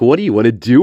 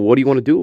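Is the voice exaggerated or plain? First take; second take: exaggerated; plain. First: It is said in an exaggerated put-on voice. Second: It is said in a fairly plain voice. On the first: The speaker calls it right. "Quinn sounds probably more like this" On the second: The speaker calls it wrong. "no, Quinn doesn't sound like that"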